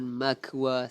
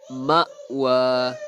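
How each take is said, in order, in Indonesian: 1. Konsonan tengahnya adalah bunyi k. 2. Konsonan tengahnya adalah hamzah. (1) "bukannya ma'wa ataupun makwa, salah" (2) "Hamzah kalau mati bunyinya ma ma'wa"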